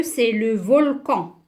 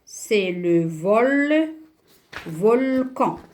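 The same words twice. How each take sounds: First: Said in the usual way. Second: VOLCAN broken up, VOL held long, then CAN; syllable by syllable. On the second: Shown as a demonstration. Teacher sounding out the picture word, syllable by syllable. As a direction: stretch VOL slowly and separate it from CAN. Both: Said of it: "qu'est-ce que je vais écrire".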